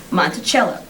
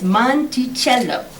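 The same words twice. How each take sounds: First: Said in the usual way. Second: Monticello drawn out slowly, syllable by syllable; slow, phonetic Monticello with an Italian ch; native Italian pronunciation. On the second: Acted. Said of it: "pronounced by a native".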